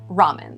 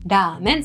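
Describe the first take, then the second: First: It is said with an English pronunciation. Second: It is said with a Japanese pronunciation. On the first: "No list of food would be complete without the word ramen" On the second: "This comes from the Japanese ramen"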